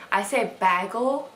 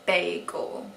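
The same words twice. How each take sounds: First: Bagel said with a short a, like bag; "bagel" as BAG-el, the Wisconsin way; own way of saying bagel. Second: Bagel said with a long a, BAY-gel; "bagel" drawn out as BAY-gul; Southern bagel. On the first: Shown as a demonstration. Wisconsin vlogger demos her own bagel. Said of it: "I found out that I say weird". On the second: Retold or imitated. Vlogger imitates how Southerners say bagel. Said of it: "everyone down here says".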